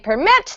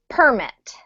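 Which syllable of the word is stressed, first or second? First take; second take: second; first. First: The stress is on the second syllable. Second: The stress is on the first syllable. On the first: It is a verb meaning to allow. "then it's a verb" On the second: It is a noun meaning a document. "when this is a noun, like it is here, we have to emphasize the first syllable"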